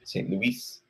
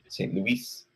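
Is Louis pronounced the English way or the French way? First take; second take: French; French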